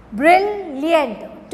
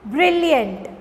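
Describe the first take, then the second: First: "brilliant" broken into two beats, bril, liant; split into syllables. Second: Said in the usual way. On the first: Shown as a demonstration. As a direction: pause clearly after "bril" in "brilliant". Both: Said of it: "two syllables".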